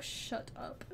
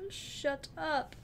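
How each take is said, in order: First: Breathy whispered shut up. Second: Said in the usual way. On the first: Real, not acted. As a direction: hiss it under your breath. Teasing reply to chat.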